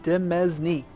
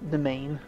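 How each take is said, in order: First: It is pronounced following its spelling. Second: It is pronounced exactly like the word domain. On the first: The speaker calls it wrong. "it looks like Demesne" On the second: The speaker calls it right. "that's how you pronounce it"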